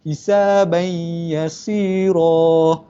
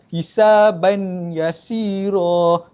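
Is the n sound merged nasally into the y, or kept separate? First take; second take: merged; separate. First: The n merges nasally into the following y. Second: The n is kept separate, without nasal merging. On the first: The speaker calls it right. "kita kena dengung, masukkan tanwin ni" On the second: The speaker calls it wrong. "Bukan hisaban yasira"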